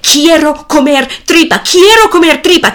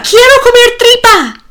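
First: Put-on spoiled boy's demand, climbing; boy chanting his demand, getting louder; rising demand. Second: Much higher, louder shrieked demand; the tantrum peaks in a shriek; boy's demand peaking in a high shriek. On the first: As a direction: chant it louder and higher each time. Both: A narrator's reading. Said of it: "el hijo grita".

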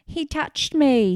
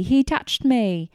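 First: High, loud yell stressing me, "He touched ME!"; retold yell. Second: High, loud yell stressing he, "HE touched me!"; retold yell. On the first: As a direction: shriek it slowly, landing on "me". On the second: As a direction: shriek it slowly, punching "he". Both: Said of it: "Michael is yelling".

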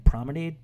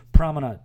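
First: Promenade? said pro-muh-NAYD, ending like Gatorade, with a questioning rise; rhymed with Gatorade. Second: Promenade. said pro-muh-NAHD, ending in "nahd", firmly falling; corrected ending. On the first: Speaker mocking his own wrong saying, Promenade ending like Gatorade. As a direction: say Promenade with a long "ayd" ending, as if unsure. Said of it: "like it's Gatorade or something". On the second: Speaker correcting himself, Promenade with the "nahd" ending. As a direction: settle it: Promenade with a broad "ahd" ending. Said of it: "It's a promenade, right?".

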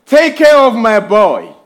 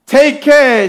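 First: Gentle plea, slightly raised; a mother's prayer for her son; praying mother. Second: "Take care" lifted high; stress on CARE. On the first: Retold or imitated. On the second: Shown as a demonstration. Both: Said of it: "her saying in prayer".

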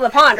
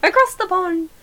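First: Said in the usual way. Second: Higher-pitched mock English accent; put-on English caricature, pitched up; attempted English accent. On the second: Shown as a demonstration. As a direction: have another go at a badly faked English accent. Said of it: "That's all I got".

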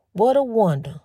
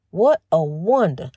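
First: Said in the usual way. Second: "What a wonder" said slower and lower, savoring it; slow musing. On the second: Real, not acted. To her listeners, repeating the phrase slowly and low in awe. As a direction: let it sink in, drawn out and low.

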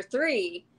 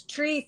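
First: Said in the usual way. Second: "Tree" drawn out, hard t for th; uncle's THREE. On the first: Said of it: "Tree for three". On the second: Retold or imitated. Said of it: "But he says".

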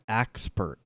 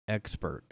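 First: "axpert" opening on an A as in "axe"; accented "axpert". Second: Said in the usual way. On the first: Shown as a demonstration. Would-be accent expert showing off, "axpert" said with an AX sound. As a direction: say "axpert" with AX for the first syllable.

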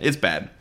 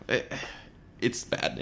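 First: Said in the usual way. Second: Whispered it's bad. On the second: Podcast host judging the bad movie, whispered. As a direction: breathe it out as a hushed aside. Repeats verdict, first whispered.

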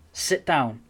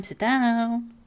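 First: Said in the usual way. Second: Higher, louder, put-on voice ordering everyone down; a hammed-up summons to sit; mock command voice.

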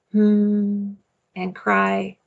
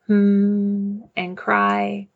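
The two takes are said the same way.

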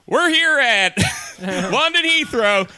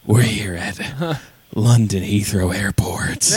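First: Slow booming cabin announcement; loud pilot announcement. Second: Hushed, slow intimate whisper; whispered pilot voice. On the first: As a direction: announce it over the speakers. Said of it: "if he's like". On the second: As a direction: whisper it close to the mic. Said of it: "so he's gonna be like". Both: Pretend.

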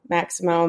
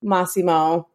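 First: Maximo said as MAX-uh-moh with a hard x; Maximo, the English misreading with a ks sound; anglicised wrong name. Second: Massimo with an open ah and a hissed ss; correct Italian name. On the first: Repeating her own earlier slip, she says Maximo the wrong way. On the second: Corrected by her co-host, she says Massimo the Italian way. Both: Shown as a demonstration.

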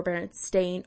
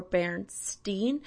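First: "Berenstain" ending like the word "stain"; "-stain" pronunciation. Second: "Bernstein" ending in "steen"; "-steen" pronunciation. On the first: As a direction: say "Berenstain" with a long A in the last syllable. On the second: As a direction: say "Bernstein" with a long EE in the last syllable. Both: Shown as a demonstration. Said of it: "controversy over Berenstain or Bernstein".

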